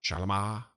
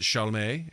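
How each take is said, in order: First: "Chalamet" said sha-la-MAH; Chalamet ending in MAH. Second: "Chalamet" said SHALL-may; Chalamet ending in MAY. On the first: Co-host trying the French version, "Chalamet" as sha-la-MAH. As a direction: say "Chalamet" with a final "mah" sound. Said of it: "think it's Chalamet". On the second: Co-host unsure of the actor's name, "Chalamet" as SHALL-may. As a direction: say "Chalamet" with a final "may" sound. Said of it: "or is it Chalamet?". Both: Shown as a demonstration.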